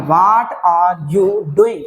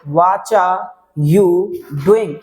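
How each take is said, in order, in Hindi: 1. 'what are' के दोनों शब्द पूरे और अलग-अलग बोले जाते हैं। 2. 'What are' एक शब्द में मिलकर 'whatcha' बन जाता है। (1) "पहले व्हाट आर you doing" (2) "वाट आर की जगह पे आपको क्या बोल देना, वाचा बोल देना"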